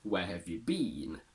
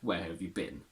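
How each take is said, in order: First: The final word has a full, long vowel. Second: The final word has a short, reduced vowel. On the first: The speaker calls it right. "we should technically say" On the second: The speaker calls it wrong. "but some people will say"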